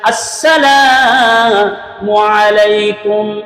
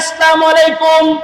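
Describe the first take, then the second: First: It opens with a clear catch and distinct s. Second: The opening sounds are blurred and loosely pronounced. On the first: The speaker calls it right. "শুদ্ধ সালাম হচ্ছে আগে আ হামজা জবর আ" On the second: The speaker calls it wrong. "এটা শুদ্ধ সালাম না।"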